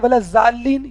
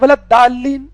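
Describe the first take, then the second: First: The last word begins with a z sound. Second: The last word begins with a plain d sound. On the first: "कुछ लोग कहते हैं वला जालीन, ये भी गलत है" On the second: "कुछ लोग कहते हैं वलत दालीन, ये भी गलत है"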